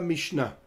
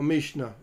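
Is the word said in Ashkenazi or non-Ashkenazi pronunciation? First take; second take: non-Ashkenazi; Ashkenazi. First: It is said in non-Ashkenazi pronunciation. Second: It is said in Ashkenazi pronunciation.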